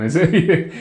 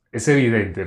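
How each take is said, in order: First: Laughing through a word. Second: Said in the usual way. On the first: Real, not acted. Preacher laughing at the obvious point. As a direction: chuckle breaking into the word evidente.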